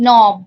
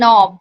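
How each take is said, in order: The two takes are said the same way.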